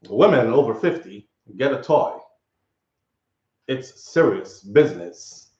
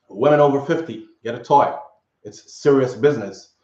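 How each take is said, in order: First: It is said like a commercial announcer. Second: It is read out plainly.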